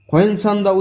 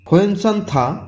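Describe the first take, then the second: First: The last syllable begins with a voiced d. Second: The last syllable begins with an aspirated t. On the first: The speaker calls it wrong. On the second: The speaker calls it right.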